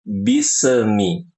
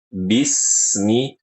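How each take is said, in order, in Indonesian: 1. Kata itu punya pantulan yang bergema. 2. Bunyi s mengalir lancar ke bagian berikutnya. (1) "Apalagi di qalqalah bismi, jangan" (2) "bismi dialirkan"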